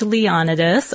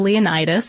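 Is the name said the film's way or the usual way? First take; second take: usual; film. First: The name is said in the usual way. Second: The name is said as in the film.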